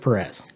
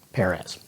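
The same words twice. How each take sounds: First: The first syllable does not sound like 'pear'. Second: The first syllable sounds like the word 'pear'. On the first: The speaker calls it wrong. "I pronounced it Perez, which is not right" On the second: The speaker calls it right. "like the fruit pear"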